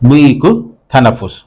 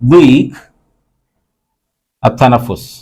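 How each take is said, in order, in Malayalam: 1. ഈ രണ്ട് വാക്കുകളും ഒരു ബന്ധിത സ്വരാക്ഷരത്തോടെ ഒന്നിച്ചാണ് പറയുന്നത്. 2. ഈ രണ്ട് വാക്കുകളും വെവ്വേറെ വാക്കുകളായാണ് പറയുന്നത്.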